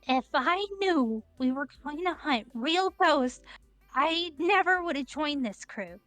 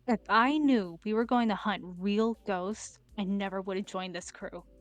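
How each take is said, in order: First: It is said in a genuinely terrified way. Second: It is said calmly in a natural voice.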